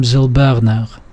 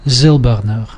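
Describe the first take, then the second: First: Silberner stressed on "ber"; wrong penultimate stress. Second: Silberner stressed on "Sil"; stress stays put. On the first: Teacher showing what it doesn't become, penultimate stress. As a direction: shift the weight to the middle of Silberner. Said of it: "second syllable from the last". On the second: Teacher showing the suffix leaves it unmoved, stem stress. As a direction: hold the weight on the first syllable of Silberner. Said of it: "It still stays". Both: Shown as a demonstration.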